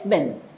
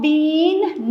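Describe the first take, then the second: First: The vowel is kept short. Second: The vowel is drawn out long. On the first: The speaker calls it right. "No, it's been" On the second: The speaker calls it wrong. "Do not pronounce it long"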